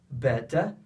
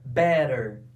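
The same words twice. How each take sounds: First: The t is a crisp, strong t. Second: The t sounds like a quick r. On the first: "Para os britânicos, eles vão pronunciar a letra T como ela é" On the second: "Os americanos pronunciam a letra T com som de R"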